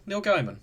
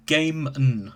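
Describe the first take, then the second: First: "Gaiman" said as GUY-mun; GUY-mun pronunciation. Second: "Gaiman" said as GAY-mun; GAY-mun pronunciation. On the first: Real, not acted. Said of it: "you really pronounce his name Gaiman?". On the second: Shown as a demonstration. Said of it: "Apparently it's pronounced Gaiman".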